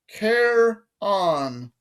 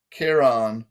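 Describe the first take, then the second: First: High British voice, syllables held apart; British accent, demonstrating. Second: Said in the usual way. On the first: A narrator's reading. Guard teaches boy his name, drawn-out British accent. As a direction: sound out the name slowly, British-style. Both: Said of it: "Say it with me".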